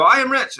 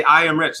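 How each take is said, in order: First: A much higher, unconvinced "I am rich"; doubtful audience echo. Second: Said in the usual way. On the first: Retold or imitated. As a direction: echo it like a crowd that doesn't believe it. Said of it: "They go". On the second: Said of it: "everybody say".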